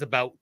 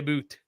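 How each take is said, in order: First: The vowel sounds like the word 'out'. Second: The vowel sounds like the word 'boot'. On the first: The speaker calls it right. "It is about" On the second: The speaker calls it wrong. "we do not say a boot"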